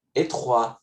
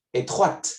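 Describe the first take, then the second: First: "Étroit" ending on the open vowel, no T; final T silent. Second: "Étroite" with the T sounded at the end; final T pronounced. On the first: Teacher to students, the masculine form with a silent T. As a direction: say "Étroit" as etrwa with no T. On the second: Teacher to students, the feminine form with its T. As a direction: finish "Étroite" on a clear T. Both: Shown as a demonstration.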